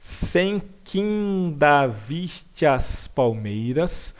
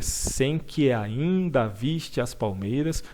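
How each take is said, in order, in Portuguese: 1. As palavras que e ainda se juntam em uma só. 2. As palavras que e ainda são pronunciadas separadamente. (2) "deveria ser sem que ainda viste as palmeiras"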